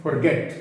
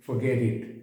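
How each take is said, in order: First: Forget with the R fully sounded; wrong pronunciation. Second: Forget with silent R and O as a schwa; R dropped, O reduced. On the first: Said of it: "इनका pronunciation गलत है।". (Forget में आर पूरा बोलते हुए गलत उच्चारण) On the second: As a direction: say Forget as "fuh-GET", no R. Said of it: "मैं आर भी नहीं बोल रहा, ओ को अ बोल रहा हूँ।". (Forget में आर चुप, ओ को अ बोलते हुए) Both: Shown as a demonstration.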